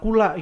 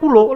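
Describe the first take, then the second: First: The word ends with an open A vowel. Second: The word ends with a rounded O vowel. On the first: This is how the speaker's own village says it. "kalau di daerah di desa gua itu pakainya A" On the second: This is how a neighbouring district says it. "di Panguragan nih pakainya kulo"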